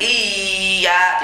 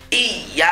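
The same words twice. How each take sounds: First: The doubled y is held long and nasal. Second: The doubled y is pressed and released quickly. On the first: The speaker calls it wrong. "jangan iya, tidak boleh" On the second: The speaker calls it right. "ditekan langsung dilepas"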